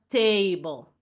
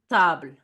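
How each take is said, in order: First: It is pronounced with English sounds. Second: It is pronounced with French sounds. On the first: The speaker calls it wrong. "not table" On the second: The speaker calls it right. "it does sound table"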